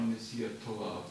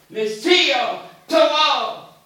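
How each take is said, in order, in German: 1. Er wird mit normaler, ruhiger Stimme gesagt. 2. Er wird laut und energisch gesagt, wie ein Befehl. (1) "Nicht so gesagt, normal" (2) "so stark militärisch sagen"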